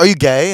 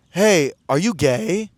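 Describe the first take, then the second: First: Quicker, raised-voice imitation of the stranger; louder repeated question. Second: Slow, stretched imitation of a stranger asking; drawn-out question. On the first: Guy repeats himself to a confused dancer, louder question. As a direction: say it up loud for someone who missed it. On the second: Guy taps him on the shoulder at the club, drawn-out question. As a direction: draw the question right out. Stranger's first, tentative approach retold.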